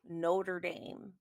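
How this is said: It is said with an American pronunciation. "in the U S, I believe they say Notre Dame"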